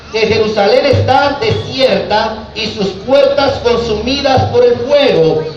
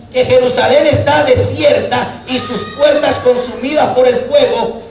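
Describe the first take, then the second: Both takes have the same delivery.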